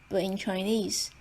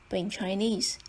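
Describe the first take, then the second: The two takes are said the same way.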